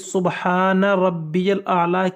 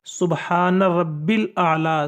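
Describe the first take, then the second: First: The middle word is said as longer rabbiyal. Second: The middle word is said as short rabbil. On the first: The speaker calls it right. "सुबहान रब्बियल आला की जगह" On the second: The speaker calls it wrong. "बाज़ लोग गलती ये करते हैं"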